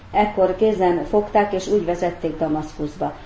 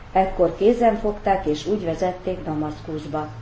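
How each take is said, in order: No difference in how they are said.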